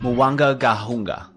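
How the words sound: It sounds firm and confident.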